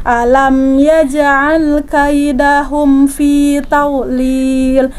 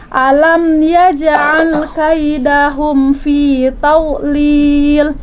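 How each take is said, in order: No difference in how they are said.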